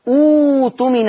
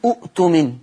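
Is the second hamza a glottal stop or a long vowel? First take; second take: long vowel; glottal stop. First: The second hamza becomes a long 'oo' vowel. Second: The second hamza is said as a glottal stop. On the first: The speaker calls it right. "يناسب الضمة الواو، فعشان كده بقول ايه اوتمن" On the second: The speaker calls it wrong. "اوعى تبتدي الكلمه وتقول اؤتمن، ما ينفعش"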